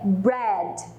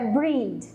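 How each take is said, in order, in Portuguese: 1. A vogal soa como um 'e' aberto. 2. A vogal soa como um 'ee' longo. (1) "É o som de é aberto" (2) "Não é breed"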